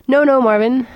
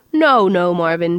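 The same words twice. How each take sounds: First: Higher, louder lilting no no Marvin; a lilting, cheerful reassurance to the robot; lilted. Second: A lightly trilled sing-song no; a hint of a cheerful trill; lightly sing-song reassurance. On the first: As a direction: sing it out brightly and loudly. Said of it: "lilted Trillian". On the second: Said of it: "trilled Trillian". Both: A narrator's reading.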